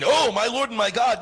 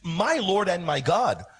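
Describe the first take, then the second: First: It sounds like a casual surprised exclamation. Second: It sounds like a solemn, earnest confession.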